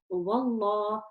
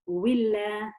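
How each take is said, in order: First: The L is heavy, with rounded lips. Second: The L is light, with spread lips. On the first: "If the letter before has a fatha or a dhamma, I would pronounce the lam in the name of Allah heavy" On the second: "If it has a kasra, I would pronounce the lam in the name of Allah light"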